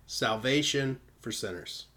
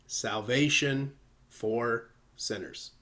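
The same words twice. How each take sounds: First: Said in the usual way. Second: "Salvation for sinners" said slowly, weight on "Salvation"; slow emphatic. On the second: Shown as a demonstration. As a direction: draw out "Salvation for sinners" deliberately.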